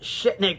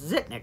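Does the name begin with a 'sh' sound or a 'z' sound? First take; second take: sh; z. First: The name begins with a 'sh' sound. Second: The name begins with a 'z' sound. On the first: The speaker calls it wrong. "I used to pronounce it Shitnik back as a kid" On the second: The speaker calls it right. "But it's pronounced Zitnik"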